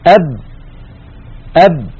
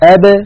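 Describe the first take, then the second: First: The final b is closed off with no release. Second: The final b is released with a slight bounce. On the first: The speaker calls it wrong. "بدلا من أن نقول أب" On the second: The speaker calls it right. "نقول أب أ ب ب، تبتعد الشفتان هكذا عن بعضهما فتخرج الباء الساكنة المقلقلة"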